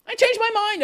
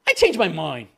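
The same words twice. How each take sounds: First: "I changed my mind" jumped up high in a prissy sing-song; high mocking take; mock whiny intern. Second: Said in the usual way. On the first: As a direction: repeat it like a spoiled brat. Intern quote, repeated mockingly.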